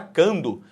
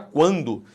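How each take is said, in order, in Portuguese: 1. A primeira consoante não tem som de 'w' depois dela. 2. A primeira consoante tem som de 'w' depois dela. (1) "Você não fala cando" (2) "esse U é pronunciado"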